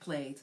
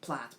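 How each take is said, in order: First: The vowel is long, as in 'late'. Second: The vowel is short, as in 'cat'. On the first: "it's either plat or plate. Both are correct" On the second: "it's either plat or plate. Both are correct"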